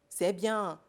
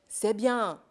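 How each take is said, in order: The two takes are said the same way.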